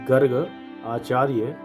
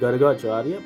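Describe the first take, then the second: First: The name is split into two separate words. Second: The name is joined into one single word. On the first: "संधि विच्छेद करके पढ़ेंगे" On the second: "इकट्ठा पढ़ेंगे"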